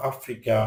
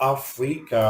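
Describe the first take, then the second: First: Said in the usual way. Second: "Africa" broken into three syllables; "Africa" pulled apart for learners; split syllables. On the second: Shown as a demonstration. Word split by syllable, then whole.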